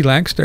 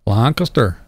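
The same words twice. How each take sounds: First: Lancaster squeezed into "LANK-ster"; Lancaster run together as two syllables. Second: Lancaster as "LAHN-kuh-ster", open first vowel; Lancaster spread out with a broad "ah"; three-syllable Lancaster. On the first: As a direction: say Lancaster as "LANK-ster", middle vowel dropped. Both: Shown as a demonstration. Same town name said two ways.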